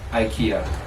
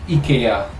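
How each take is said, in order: First: The name is said the usual British way. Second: The name is said in a non-British way. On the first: The speaker calls it wrong. "not IKEA" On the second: The speaker calls it right. "it's called IKEA"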